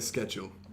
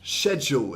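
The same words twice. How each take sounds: First: The word begins with a 'sk' sound. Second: The word begins with a 'sh' sound. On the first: This is the newer, Americanized way of saying it. "but we say schedule" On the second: This is the older British way of saying it. "schedule is how my mother pronounced it"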